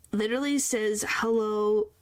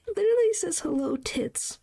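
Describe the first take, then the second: First: Said in the usual way. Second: Higher, giggly reread; laughing disbelief. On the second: Real, not acted. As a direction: crack up as you repeat it. Rereading it, cracking up.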